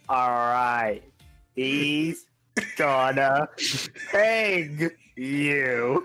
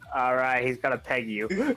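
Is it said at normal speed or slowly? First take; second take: slowly; normal speed. First: It is said slowly. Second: It is said at normal speed.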